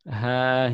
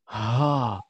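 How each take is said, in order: First: The h is made lightly in the throat. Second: The h is pushed out with heavy breath. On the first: The speaker calls it right. "tapi di tenggorokan" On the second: The speaker calls it wrong. "harus ya menghembuskan dada"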